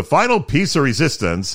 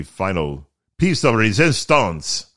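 First: Said in the usual way. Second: Slow, hammed-up French accent; terrible French accent. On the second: Podcaster showing off the final renovation touch, terrible French accent. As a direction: put on a bad French accent. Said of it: "my terrible French accent".

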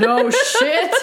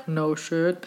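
First: High, laughing mock surprise; laughing sarcasm. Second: Low, soft deadpan aside; dry sarcasm. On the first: Reader hooting at another obvious item, sarcastic laughter. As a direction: exclaim it through a laugh. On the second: Reader commenting on an obvious list, deadpan. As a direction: drop it under the reading. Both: Real, not acted.

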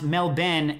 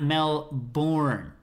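First: Melbourne as MEL-ben, short second syllable; local pronunciation. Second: Melbourne drawn out as mel-BORN with a full r; slow Melbourne, second syllable stretched like "born"; wrong pronunciation. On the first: Reading a listener's note on his city's name, local pronunciation. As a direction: say Melbourne as "Mel-bin", the r dropped. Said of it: "which is pronounced Melbourne". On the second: Reading out how not to say the city, wrong pronunciation. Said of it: "not Melbourne". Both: Shown as a demonstration.

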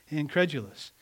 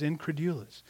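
First: "Incredulous" with stress on CRED and a j sound; alternative pronunciation. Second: "incredulous" with a "DOO" sound in the middle; variant pronunciation. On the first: Preacher correcting himself on the word, "Incredulous" said in-CREJ-uh-lus. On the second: Preacher trying out the word for the congregation, "incredulous" said in-cre-DOO-lus. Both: Shown as a demonstration. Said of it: "depends on which syllable you put the emphasis".

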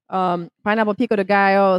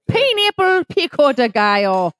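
First: Said in the usual way. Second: A light Irish lilt on "pineapple pico de gallo"; sudden Irish accent. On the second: Pretend. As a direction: slip into a playful Irish accent, pitched up. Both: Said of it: "I don't know why I'm Irish".

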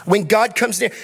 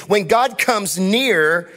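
First: Said in the usual way. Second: "When God comes near" drawn out slowly, each word weighed; slow emphatic. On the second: Shown as a demonstration. Pastor to congregation, slow emphatic preaching. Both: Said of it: "Listen to me".

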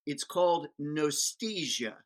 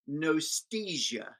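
First: Said in the usual way. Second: Nostalgia said slowly, each syllable weighed; drawn-out emphatic Nostalgia; slow stressed Nostalgia. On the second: Shown as a demonstration. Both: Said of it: "Fifty percent nostalgia, fifty percent amnesia".

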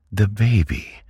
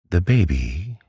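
First: Put-on "the baby" pitched high, then falling; high, emphatic "the baby", dropping at the end; insistent repeat. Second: Put-on "The baby" higher, lifting at the end; "The baby" left hanging on a rise; first, questioning take. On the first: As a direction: press "the baby" home with a high fall. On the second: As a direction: ask "The baby" with a rising tune. Aunt presses for news, repeats. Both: A narrator's reading.

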